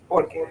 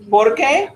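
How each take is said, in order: First: "Por qué" said softer, with no rise, as porque; answering intonation. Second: "Por qué" high, rising on qué; questioning intonation. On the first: Teacher contrasts because with why, "Por qué" softer without a rise. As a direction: drop qué in "Por qué", stressing POR. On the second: Teacher contrasts why with because, "Por qué" rising high. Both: Shown as a demonstration. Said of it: "it's the intonation that makes the difference".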